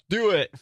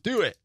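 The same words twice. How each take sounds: First: It is said with lively enthusiasm. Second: It is said flatly without enthusiasm.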